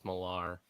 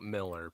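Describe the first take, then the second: First: The name is said as 'Millar'. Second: The name is said as 'Miller'. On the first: The speaker calls it right. "no, it's Millar" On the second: The speaker calls it wrong. "It's not Miller"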